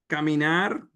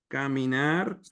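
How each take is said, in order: Both takes have the same delivery.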